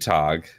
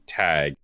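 First: The vowel sounds like the one in 'father'. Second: The vowel sounds like the one in 'bag'. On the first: The speaker calls it right. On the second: The speaker calls it wrong. "not tag, as in like T-A-G"

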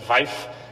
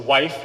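First: It is said with an Eastern European v sound. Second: It is said in plain English with a w sound.

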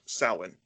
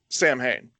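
First: The word is said the Celtic way. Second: The word is said the way it looks. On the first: The speaker calls it right. "But it's a Celtic word. It's pronounced Samhain" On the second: The speaker calls it wrong. "they still pronounce it wrong. They still pronounce it Samhain"

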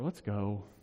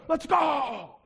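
First: It sounds weary and frustrated. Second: It sounds fired up and excited.

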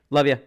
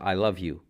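First: It is said casually, as a throwaway line. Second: It is said sincerely, with heartfelt meaning.

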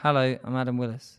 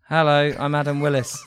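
First: The greeting sounds flat and unenthusiastic. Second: The greeting sounds lively and enthusiastic.

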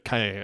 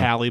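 First: The surname is said like 'Kaye'. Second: The surname is said like 'Callie'. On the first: This is closer to how the name is really said. The speaker calls it right. "Sasha Kaye, I believe, or closer to that" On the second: This is how an American would read the spelling. The speaker calls it wrong. "It looks like, you know, with American tongue. Callie, but I don't think that's how"

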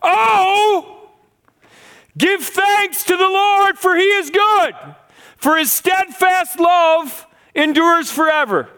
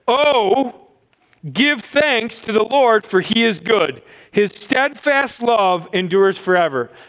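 First: It is read with lively, exclamatory energy. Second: It is read calmly, without extra energy.

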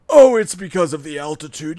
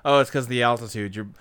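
First: It is said in a put-on dub voice. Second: It is said in the speaker's normal voice.

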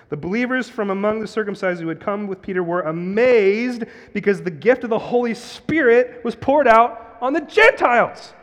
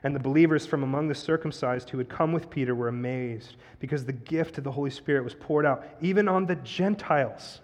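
First: It is read with strong, excited inflection. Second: It is read fairly plainly, with little inflection.

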